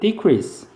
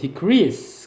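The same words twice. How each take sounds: First: The stress is on the first syllable. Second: The stress is on the second syllable. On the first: It is a noun meaning a reduction. "강세가 이음, 이름절에 있고 명사로 쓰이면 감소란 뜻이죠" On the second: It is a verb meaning to become less. "강세가 이음절에 있고 decrease 그러면 감소하다란 동사가 됩니다"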